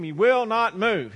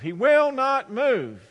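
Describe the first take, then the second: First: Slow, louder, each word of WILL NOT MOVE weighted; higher, exasperated insistence. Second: High, loud and drawn-out WILL NOT MOVE; exasperated wail. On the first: Man complaining of his stubborn donkey, exasperated. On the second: Man at his wits' end over his donkey, wailing exasperation. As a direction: stretch every word at your wits' end. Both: Acted. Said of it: "the man is exasperated".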